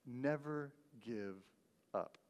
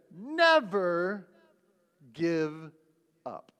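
First: Much softer, slow repeat; quiet echo. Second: Louder, drawn-out declaration with long pauses; Churchill quote. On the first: Shown as a demonstration. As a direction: let it sink in, almost to yourself. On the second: Retold or imitated. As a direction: proclaim each word like a wartime speech. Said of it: "But he said".

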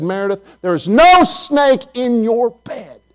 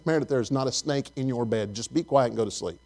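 First: Exasperated dad. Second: Put-on hushing the child. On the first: Retold or imitated. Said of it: "I said". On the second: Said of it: "And I said".

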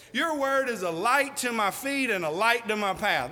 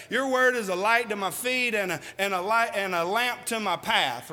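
First: Said in the usual way. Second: Halting, tripping over the words; a muddled recitation with a restart; stumbling misquote. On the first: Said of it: "I just say it like this". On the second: Shown as a demonstration. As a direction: fumble the verse and self-correct. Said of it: "I'll mess it up and say".

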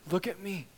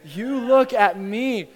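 First: Controlled voice, no shouting; steadying. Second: "You look at me" loud, high and drawn out; insistent command. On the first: Father asks terrified son for his eyes, steadying. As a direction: bring it down to steady him. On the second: Father insists that his son look at him, commanding. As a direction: stretch "You" and "look" forcefully. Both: Acted.

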